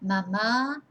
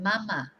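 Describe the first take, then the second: First: "mama" as ma-MAA, long final A; stress on second A. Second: "mama" as MA-ma, falling away; stress on first syllable. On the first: Teacher contrasting two accents for learners, stress on second A. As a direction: lean on the end of "mama". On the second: Teacher contrasting two accents for learners, first-syllable stress. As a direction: lean on the start of "mama". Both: Shown as a demonstration. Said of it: "difference just from an accent".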